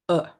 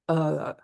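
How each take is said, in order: First: The vowel is short and quickly cut off. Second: The vowel is held out for longer. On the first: "pretty short sounds" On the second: "you switch to prolonging the sound"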